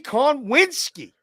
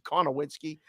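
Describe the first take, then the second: First: The surname is said with three syllables. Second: The surname is said with four syllables. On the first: "Said it right" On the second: "but I like to say Konowinski"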